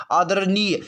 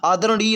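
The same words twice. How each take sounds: First: आदरणीय said as aadar-niy, with a plain न; wrong dental n. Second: आदरणीय said as aa-da-ra-ṇiy; correct retroflex ण. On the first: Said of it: "आदरणीय तो होता नहीं". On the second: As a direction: curl the tongue back for the ण in आदरणीय. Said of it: "आदरणीय होता". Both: Shown as a demonstration.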